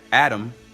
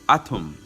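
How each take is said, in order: First: The T sound is soft and light. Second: The T sound is hard and emphasized. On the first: The speaker calls it wrong. "instead of saying atom" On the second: The speaker calls it right. "This haraf is a hard T, which means that the emphasis is on the T sound"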